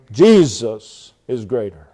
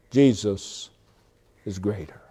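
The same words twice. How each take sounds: First: Slow, weighty emphasis on "Jesus"; stress on Jesus. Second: Low, soft and falling away; quiet, lowered statement; hushed first take. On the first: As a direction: lean hard and long on "Jesus". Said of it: "Put the emphasis on Jesus Christ". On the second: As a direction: let the words sink quietly, dropping off at the end. First take before emphatic repeat. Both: Shown as a demonstration.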